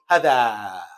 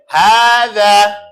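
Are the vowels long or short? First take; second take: short; long. First: The vowels are short. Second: Both vowels are long. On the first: The speaker calls it wrong. "I catch students sometimes doing hather, and it's incorrect" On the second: The speaker calls it right. "They're both elongated"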